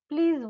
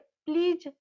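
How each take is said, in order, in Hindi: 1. यह शब्द भनभनाती हुई z की आवाज़ से खत्म होता है। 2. यह शब्द j की आवाज़ से खत्म होता है, जैसे jam में। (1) "प्लीज बोलना है, ज" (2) "प्लीज नहीं बोलना है"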